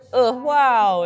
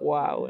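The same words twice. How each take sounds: First: It is said in a bright, positive tone. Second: It is said in a sad, exhausted tone. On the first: Something is wonderful. "in like a really positive way" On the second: Something is overwhelming and draining. "in like a very sad, exhausted way"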